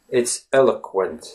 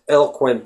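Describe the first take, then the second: First: The vowel after 'el' is a short schwa. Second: The vowel after 'el' is left out entirely. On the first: The speaker calls it right. "The letter O in that word is the schwa sound" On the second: The speaker calls it wrong. "if you just said eloquent, eloquent, that wouldn't be right. There has to be a little bit of some sound inserted"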